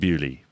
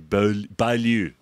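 First: It is pronounced 'bew-lee', ending in 'lee'. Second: It is pronounced 'bay-loo', ending in 'loo'. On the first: The speaker calls it right. "But it's actually Bewley" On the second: The speaker calls it wrong. "But people say Bailu"

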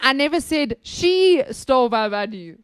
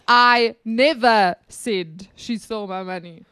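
First: The stress is on "she". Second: The stress is on "never".

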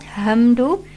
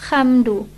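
First: The first sound is a plain English h. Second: The first sound is a raspy kh. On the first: "and not hamdu" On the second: "and not khamdu"

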